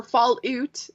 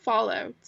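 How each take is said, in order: First: Fallout said slowly with her accented vowel, fall-oot; Fallout in her own accent. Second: Said in the usual way. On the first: Shown as a demonstration. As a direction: draw out Fallout the way she naturally says it. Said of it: "make fun of my accent". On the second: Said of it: "if you guys wanna make fun of my accent".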